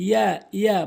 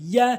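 First: ইয়া short and quickly repeated; wrong pronunciation. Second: ইয়া with a held y, rising; correct pronunciation. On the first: Teacher showing learners the mistake, short wrong ইয়া. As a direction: say ইয়া loosely as plain ia. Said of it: "ভুল উচ্চারণ". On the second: Teacher modelling for learners, correct firm ইয়া. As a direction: press mid-tongue to palate for ইয়া. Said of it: "সঠিক উচ্চারণ হচ্ছে". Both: Shown as a demonstration.

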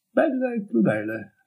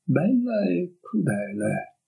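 First: A high, drifting dreamy tone on Bella. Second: Slow, faraway echo of "Bella e crudele"; slow dreamy. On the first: The girl repeating his words in a dreamy daze. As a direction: let "Bella e crudele" float up high and fade. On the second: The girl echoing it to herself, slow and dreamy. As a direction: drift through "Bella e crudele" slowly, lost in thought. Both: A narrator's reading. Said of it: "ripeté lei in tono sognante".

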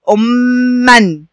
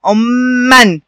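First: أمًا stretched very slowly, doubled م held long, ending -an; slow model word. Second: Said in the usual way. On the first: Shown as a demonstration. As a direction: spell out أمًا slowly for the class. (أمًا ببطء شديد مع شد الميم) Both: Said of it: "اتنطقت إيه".

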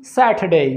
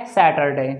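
First: सैटरडे with silent r, British accent. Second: सैटरडे with the middle r sounded, Indian accent. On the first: Teacher comparing accents for students, British accent. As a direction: say सैटरडे as British "sat-uh-day". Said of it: "British में बोलेंगे हम". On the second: Teacher comparing accents for students, Indian accent. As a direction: say सैटरडे the Indian English way, "sa-tar-day". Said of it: "Indian में हम बोलेंगे". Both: Shown as a demonstration.

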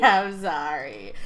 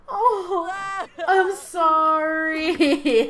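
First: Low, laughing apology. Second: Very slow, wailing mock apology; drawn-out mock apology. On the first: Real, not acted. Vlogger giggling at the grieving Sim, laughing apology. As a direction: let the giggle break through the apology. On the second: Vlogger apologising to the grieving Sim, slow mock wail. Apologising while laughing at mourning.

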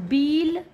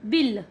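First: बील with a long drawn ee. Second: बिल with a short clipped i. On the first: Teacher showing the long vowel in बील. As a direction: stretch the ee in बील. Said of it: "कौन सा सही है". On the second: Teacher showing the correct short i in बिल. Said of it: "बिल सही है". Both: Shown as a demonstration.

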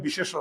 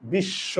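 First: বিশেষ said as three syllables, "bi-she-sho"; vowel wrongly put between the two sh sounds in বিশেষ; undoubled sh in বিশেষ, extra vowel between; wrong pronunciation demo. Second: বিশ্ব as "bish-sho", sh said twice; softer বিশ্ব with a doubled sh; correct doubled consonant. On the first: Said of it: "হসন্ত না দিলে উচ্চারণ হবে". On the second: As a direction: hold the sh in বিশ্ব, no vowel between. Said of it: "এই জন্য হসন্ত দিতে হবে". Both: Shown as a demonstration.

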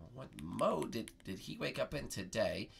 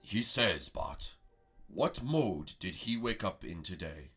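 First: Said in the usual way. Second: Low, slow mystic master asking a riddle; wise master voice. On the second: Acted. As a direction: lower and slower, posing the question. Master Prego asks riddle.

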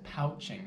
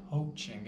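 First: "pouching" said with the ow of pouch, rhyming with couch; wrong vowel. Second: "poaching" said with the long o of poach, like coach; correct word. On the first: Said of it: "Five times I said pouching instead of". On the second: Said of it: "instead of poaching". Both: Shown as a demonstration.

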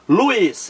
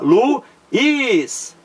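First: Said in the usual way. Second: "Luiz" split in two, Lu... iiiz, higher pitched; syllables separated. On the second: Shown as a demonstration. Teacher separating syllables for students, "Luiz" split and drawn out. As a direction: say "Luiz" slowly, pausing between Lu and iz. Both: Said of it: "Vamos separar".

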